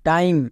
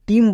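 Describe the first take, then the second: First: The vowel sounds like 'eye'. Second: The vowel sounds like 'ee'. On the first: The speaker calls it right. "ভিসিবি রুলে থাকলে আই long sound" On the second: The speaker calls it wrong. "একে কেউ টিম বলবে না"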